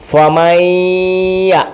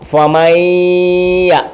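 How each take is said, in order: First: The n merges into a doubled nasal y. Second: The same.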